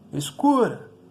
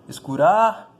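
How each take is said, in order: First: The stress is on the middle syllable. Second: The stress is on the last syllable. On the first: The speaker calls it right. "Você gritaria escura" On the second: The speaker calls it wrong. "Também não, né?"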